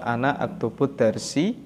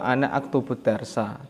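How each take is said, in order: First: The last word ends in an i vowel. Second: The last word ends in an a vowel. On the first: The speaker calls it wrong. "tidak dibaca" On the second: The speaker calls it right.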